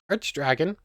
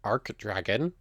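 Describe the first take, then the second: First: The first word ends with a 'ch' sound. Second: The first word ends with a 'k' sound. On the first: "now I'm doing arch again" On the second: "I think I was settling on arc before"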